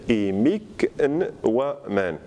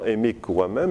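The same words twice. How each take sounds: First: "émic waman" in separate pieces, with an n before waman; written form. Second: "émic waman" linked, with the n absorbed into the w; spoken form. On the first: Teacher dictating spelling, "émic waman" word by word. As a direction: break up "émic waman" and sound the n apart. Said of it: "mais on va écrire". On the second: Teacher showing what is heard, "émic waman" assimilated. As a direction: run "émic waman" together without an n. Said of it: "On entend". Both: Shown as a demonstration.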